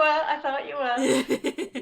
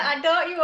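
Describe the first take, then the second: First: Laughing. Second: Said in the usual way. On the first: Real, not acted. Host joking with guest.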